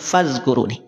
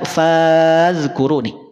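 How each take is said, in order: First: The first vowel is short and direct. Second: The first vowel is drawn out long. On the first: The speaker calls it right. "tapi dibaca langsung fazkuruni" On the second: The speaker calls it wrong. "tidak perlu dipanjangkan, tidak fazkuruni"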